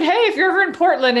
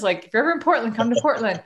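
First: Much higher, louder, fast invite; eager invitation. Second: Said in the usual way. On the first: Retold or imitated. Inviting a new friend to visit, much higher, louder and fast. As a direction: blurt the invite out brightly.

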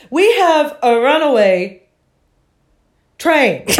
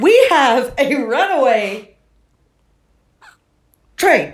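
First: Withering little voice. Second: Giggling imitation of the conductor; laughing while quoting a small voice; laughing through the quote. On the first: Retold or imitated. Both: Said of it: "the most withering little voice".

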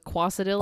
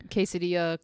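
First: Quesadilla said as "kwah-sa-dill-a"; ironic mispronunciation. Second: Said in the usual way. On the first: Shown as a demonstration. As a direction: say quesadilla with "kwah" up front and a hard L. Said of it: "I say it ironically".

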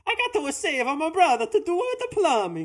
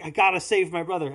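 First: High, louder cartoon Italian plumber; over-the-top mock Italian, pitched way up; Mario. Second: Said in the usual way. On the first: Shown as a demonstration. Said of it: "imagine if it was". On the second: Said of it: "anytime he's like".

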